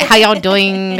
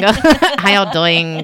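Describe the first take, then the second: First: Bad Southern impression. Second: Slow, drawn-out mock Southern greeting; slow bad Southern impression. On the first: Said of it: "I can't do it". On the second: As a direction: stretch out a bad Southern drawl. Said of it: "I can't do it. It's so bad".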